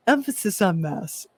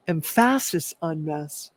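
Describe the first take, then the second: First: Said in the usual way. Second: "emphasis" said as em-FASS-is; playfully altered emphasis. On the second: Shown as a demonstration. Joking to viewers about being a mess, "emphasis" said em-FASS-is. Playful re-saying of the same phrase.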